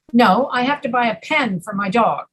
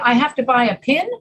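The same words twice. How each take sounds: First: "pen" stressed and falling; correcting. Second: Questioning rise on pin; "pin" lifted into a question; puzzled check. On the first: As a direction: stress on pen, with a clear short e. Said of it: "People will ask for corrections". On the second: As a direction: query the word pin as if misheard. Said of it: "And they will say, "What did you". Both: Acted.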